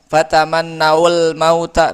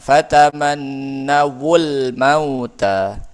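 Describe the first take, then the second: First: The two words join without a 'wu' syllable. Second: The two words join with a 'wu' syllable. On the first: The speaker calls it wrong. "Susah dibacanya" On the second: The speaker calls it right. "maka wawunya dihidupkan"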